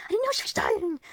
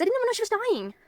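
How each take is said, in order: First: Higher, louder repeat with KNOW stressed; upset, raised-pitch insistence on "know"; distressed emphasis. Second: Said in the usual way. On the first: Real, not acted. Repeats it, upset about grandma's death.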